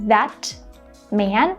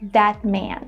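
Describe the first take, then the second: First: The T in 'that' is released with air. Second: The T in 'that' is held with no air. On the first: "Instead of saying" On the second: "I'm saying"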